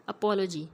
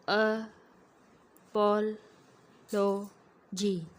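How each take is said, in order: First: Said in the usual way. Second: अपोलॉजी broken into loud, slow syllables with long pauses; scanning speech. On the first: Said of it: "जैसे for example एक word है". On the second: Shown as a demonstration. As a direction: chop अपोलॉजी apart, a gap after every syllable. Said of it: "तोड़ के बोलेगा patient".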